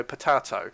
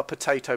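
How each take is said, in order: First: Potato said "po-TAH-toe". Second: Potato said "po-TAY-toe"; long AY in the middle of potato. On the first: Commentator dismissing a semantics quibble, potato with open A. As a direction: open A in the middle of potato, not AY. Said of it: "there isn't a semantics". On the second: Commentator dismissing a semantics quibble, potato with AY. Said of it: "It's not a potato, potato". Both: Shown as a demonstration.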